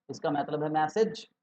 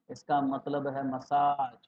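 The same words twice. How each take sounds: First: मैसेज with first-syllable ai and short "ej" ending, rising questioningly; मैसेज as "message". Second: मसाज slowly, with a long stretched "aaj"; मसाज as "massage". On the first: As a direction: ask it, saying मैसेज like English "message". (मैसेज को "मै-सेज" बोलें, सवाल के चढ़ते सुर में) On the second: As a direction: correct it slowly, drawing out the end of मसाज. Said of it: "नहीं". (मसाज को धीरे "म-साज" बोलें, लंबे "आ" के साथ) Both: Shown as a demonstration.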